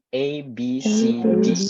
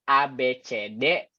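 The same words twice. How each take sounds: First: The letters are named with English sounds. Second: The letters are named with Indonesian sounds. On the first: The speaker calls it right. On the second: The speaker calls it wrong.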